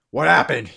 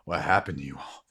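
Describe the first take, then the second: First: Raised, forceful question; loud demand. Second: Low-pitched, measured question; grave question. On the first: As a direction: demand an answer from the whole group. Man demands an answer again. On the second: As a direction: ask it low, without raising the voice. Man questions wounded arrivals. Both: Acted.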